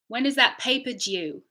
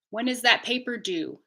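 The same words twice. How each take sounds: First: The last word has a y sound. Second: The last word has no y sound. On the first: "British English" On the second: "North American English"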